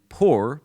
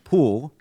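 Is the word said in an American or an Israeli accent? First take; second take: American; Israeli. First: It is said in a plain American accent. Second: It is said in an Israeli Hebrew accent.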